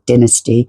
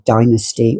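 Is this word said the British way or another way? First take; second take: British; another way. First: It is said the British way. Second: It is said the non-British way.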